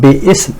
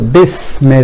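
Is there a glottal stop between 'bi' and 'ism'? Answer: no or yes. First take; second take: yes; no. First: A glottal stop separates bi from ism. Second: Bi runs straight into sm without a stop. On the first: The speaker calls it wrong. "rather than Bi Ism" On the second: The speaker calls it right. "this is dropped in pronunciation"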